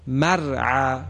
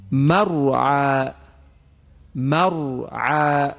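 First: مرعى with a thin, light ر, the wrong way; thin ra mistake. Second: مرعى with a thick, full ر, drawn out slowly; heavy ra. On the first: Teacher imitating a reciter's wrong thin ر in مرعى. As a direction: show the error: مرعى with thin ر. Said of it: "اگر کسی بخواند مرعى". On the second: Tajwid teacher demonstrating مرعى with heavy ر. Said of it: "شما توجه کنید". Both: Shown as a demonstration.

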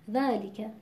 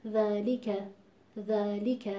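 First: ذَلِکَ with the kasra on لام rushed and barely heard; ذَلِکَ with lam hidden under the dhal; swallowed lam kasra. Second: ذَلِکَ with natural length on ذا and a clear kasra on لام; ذَلِکَ with every letter given its due; correct full pronunciation. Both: Shown as a demonstration.

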